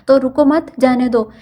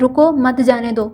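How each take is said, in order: First: The pause comes after 'ruko mat'. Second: The pause comes right after 'ruko'.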